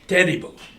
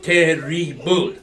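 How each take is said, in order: First: The stress falls on the first syllable only. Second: The first and final syllables are both stressed. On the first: The speaker calls it right. "It's terrible" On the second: The speaker calls it wrong. "One does not stress the first and final syllables of terrible"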